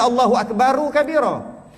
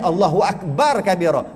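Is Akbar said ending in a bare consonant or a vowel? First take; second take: vowel; bare consonant. First: Akbar ends with an added u vowel. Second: Akbar ends on a bare r consonant. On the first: The speaker calls it wrong. "Sepatutnya Allahu Akbaru kabira" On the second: The speaker calls it right. "Yang fasih Allahu Akbar kabira. Mati walaupun dhammah"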